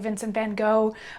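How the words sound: The name is said with an American pronunciation. "the same way that Americans say"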